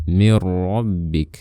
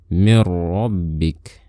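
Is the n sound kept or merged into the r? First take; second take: merged; merged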